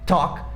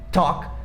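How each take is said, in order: First: The L sound is left out of the word. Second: The same.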